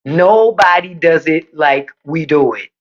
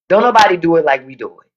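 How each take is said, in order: First: "Nobody does it like we do it" slowed right down; slow emphatic restatement. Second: Said in the usual way. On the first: Real, not acted. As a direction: spell out the boast word by word. Restates boast slowly for emphasis.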